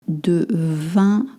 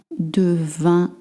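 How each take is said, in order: No difference in how they are said.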